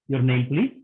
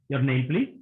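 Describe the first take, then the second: First: It is said in a polite, gentle tone. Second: It is said in a polite, gentle tone.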